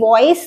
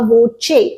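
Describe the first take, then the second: First: It is said like English 'voice', ending in s. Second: It has a 'ch' sound and ends in 'ay'. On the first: The speaker calls it wrong. "पहली बात तो ये वॉइस नहीं है, there is no I हेयर" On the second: The speaker calls it right. "इसे कहा जाता है वाइवा वोचे"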